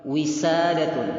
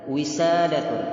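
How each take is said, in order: No difference in how they are said.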